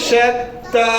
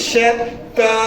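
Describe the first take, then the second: No difference in how they are said.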